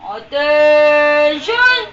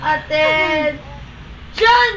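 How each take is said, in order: First: Louder, very slow drawn-out command; drill sergeant. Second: Very slow, drawn-out command; drill sergeant. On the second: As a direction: stretch the order out like a drill sergeant. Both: Pretend. Commanding a pet to stand.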